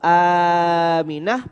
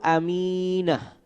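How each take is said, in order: First: The first vowel is long. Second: The first vowel is short.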